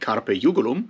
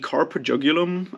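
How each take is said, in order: First: The title is pronounced in a German Latin style. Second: The title is pronounced in an English style. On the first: "I would pronounce it more like German Latin" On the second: "however you pronounce it"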